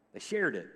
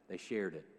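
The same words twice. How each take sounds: First: Said in the usual way. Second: Dropped low and quiet; hushed, lower repeat; soft echo. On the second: Shown as a demonstration. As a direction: say it softly, to yourself.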